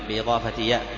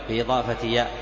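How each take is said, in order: Both takes have the same delivery.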